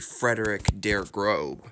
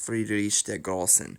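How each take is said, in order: First: The last word has a B sound in the middle. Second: The last word has an S sound in the middle. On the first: The speaker calls it wrong. "I used to think it was actually Frederick der Grobe" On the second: The speaker calls it right. "It's pronounced as two S's"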